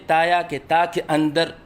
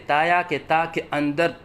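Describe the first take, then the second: Both takes have the same delivery.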